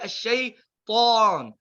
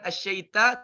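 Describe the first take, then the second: First: The t sound is heavy and thick. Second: The t sound is light and thin. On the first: The speaker calls it right. "Itu wajib ditebalkan" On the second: The speaker calls it wrong. "Bukan asyaita"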